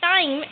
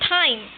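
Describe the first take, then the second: First: The first t has no puff of air. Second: The first t has a puff of air. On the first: The speaker calls it wrong. "that is not time" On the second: The speaker calls it right. "it's time"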